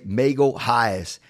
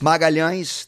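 First: The name is said with American English pronunciation. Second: The name is said with Portuguese pronunciation. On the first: "a lot of like Americans and English speakers say Magalhães" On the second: "the way you say it"

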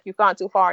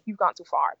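First: It is said with laughter. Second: It is said low and quietly.

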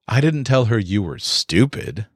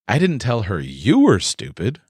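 First: The stress is on stupid. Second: The stress is on you.

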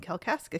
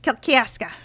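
First: It is said in a plain, neutral accent. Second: It is said in a Michigan accent.

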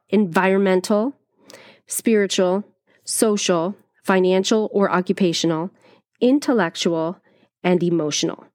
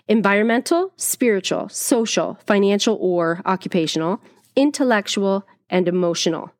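First: The list is said slowly. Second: The list is said fast.

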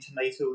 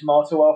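First: It is said with an American accent. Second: It is said with a British accent.

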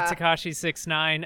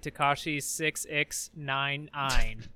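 First: The number part is read plainly as six nine. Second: The number part is read following its odd spelling.

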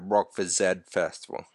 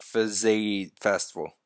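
First: Z is said the Australian way, zed. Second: Z is said the American way, zee.

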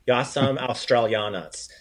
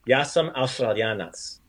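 First: The R is soft, like American English. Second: The R is rolled, like Croatian. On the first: The speaker calls it wrong. "you pronounce it like an American would" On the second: The speaker calls it right. "Try to give it some more Croatian"

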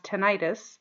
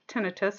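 First: The second syllable has a long 'eye' sound. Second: The second syllable has a short 'ih' sound. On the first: The speaker calls it wrong. "It's oftentimes mispronounced as tinnitus" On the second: The speaker calls it right. "It is pronounced tinnitus"

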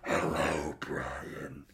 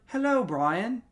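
First: It is said in a demonic voice. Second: It is said in an ordinary voice.

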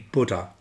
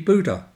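First: The first vowel has a British pronunciation. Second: The first vowel has a North American pronunciation. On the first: "in Britain, and certainly in Australia, the word would be Buddha" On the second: "In much of North America, it would be Buddha"

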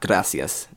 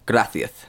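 First: The s sounds are said as plain s sounds. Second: The s sounds are said as th sounds. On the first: "not gracias" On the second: "they use the th sound for the S's. So they say gracias"

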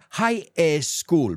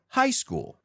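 First: An extra vowel sound is added before 'school'. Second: No extra vowel sound is added before 'school'. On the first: The speaker calls it wrong. "A lot of times my students put that E in there" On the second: The speaker calls it right. "what if we just put them together?"

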